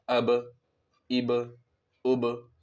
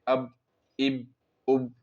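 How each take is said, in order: First: The final b is released with a bounce. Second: The final b is muted without a bounce. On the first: The speaker calls it right. "तो कलकला के साथ पढ़ना है।" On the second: The speaker calls it wrong. "बगैर टक्कर के, बगैर टकराव के, तो ये गलत हो जाएगा"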